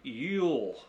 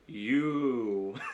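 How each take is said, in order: First: The word ends with an L sound. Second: The word ends in a plain vowel. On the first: "it sounded like he had an L at the end" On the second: "he doesn't say it like that"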